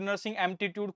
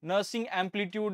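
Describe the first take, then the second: First: The second word has an added m sound. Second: The second word sounds like amplitude. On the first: "कुछ भी बोलते हैं" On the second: "कुछ भी बोलते हैं"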